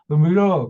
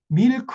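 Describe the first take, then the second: First: It is mumbled as if the mouth were full. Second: It is said crisply with every sound clear. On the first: Americans understand it. "입에 자갈을 다섯 개를 물고 물어" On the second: Americans do not understand it. "이렇게 정확하게 발음하잖아요"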